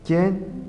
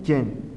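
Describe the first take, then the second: First: Quién pitched high and rising; Quién lifted, first of a contrasting pair; accented form. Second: Quién dropped with a falling end; Quién let fall, closing the pair; unaccented form. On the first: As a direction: say Quién as a questioning word, pitch going up. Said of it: "Acentúa quién si tiene sentido interrogativo". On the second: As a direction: say Quién as the unaccented word, pitch going down. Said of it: "No acentúes en los". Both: Shown as a demonstration.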